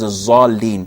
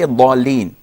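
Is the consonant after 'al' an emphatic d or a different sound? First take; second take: different sound; emphatic d. First: It is said with a different consonant sound. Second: It is said with the emphatic d sound. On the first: The speaker calls it wrong. "this is wrong" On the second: The speaker calls it right. "It's a dad. So we say ضالين"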